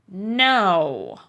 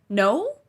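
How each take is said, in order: First: It is said as a grumpy statement. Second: It is said as a rising question.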